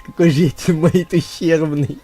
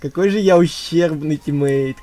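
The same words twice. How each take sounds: First: Loud words breaking into laughter; laughing. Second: Said in the usual way. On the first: Real, not acted. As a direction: laugh through the line.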